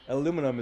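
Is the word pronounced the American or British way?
American. It is said with an American pronunciation. "because I'm American, I pronounce it one way"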